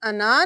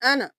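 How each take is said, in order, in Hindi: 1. अंतिम स्वर खींचकर लंबा किया जाता है। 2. अंतिम स्वर छोटा रखा जाता है। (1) "हम इसको अना नहीं पढ़ेंगे" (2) "हम सिर्फ हरकत को पढ़ेंगे"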